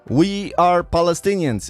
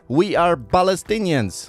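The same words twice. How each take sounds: First: Palestinians begins with a P sound. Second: Palestinians begins with a B sound. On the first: This is the intended pronunciation. "try to say" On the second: This imitates speakers who lack a P sound. "it actually sounds like they're saying"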